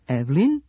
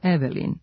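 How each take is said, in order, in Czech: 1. Prostřední e se vynechává, nevyslovuje se. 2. Prostřední e se vyslovuje jako samohláska. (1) "ukoliko nemom e u reči prethodi samo jedan suglasnik, ono se gubi ... pravilno Evelyn" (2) "umjesto Evelyn"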